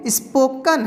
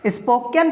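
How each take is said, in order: First: स्पोकन as "is-po-kun", slowly; short schwa in the last syllable of स्पोकन; correct pronunciation. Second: स्पोकन as "is-po-ken"; common mispronunciation. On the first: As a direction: say स्पोकन slowly, ending "-kən". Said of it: "लेकिन ये". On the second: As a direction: clear "eh" in the last syllable of स्पोकन. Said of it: "बहुत कोई इसको". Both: Shown as a demonstration.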